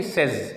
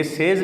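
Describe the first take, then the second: First: سیز as "sez"; short e in سیز; brief, lower-pitched "sez" for سیز; correct says. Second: سیز as "sayz"; long vowel in سیز; mispronounced says. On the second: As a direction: stretch the e of سیز. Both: Shown as a demonstration. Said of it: "یہ سیز نہیں ہے".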